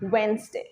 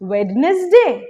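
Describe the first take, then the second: First: It has two syllables without the 'd'. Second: The 'd' is sounded in the first syllable. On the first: The speaker calls it right. "Not ওয়েনেসডে, ওয়েনসডে" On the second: The speaker calls it wrong. "Wrong"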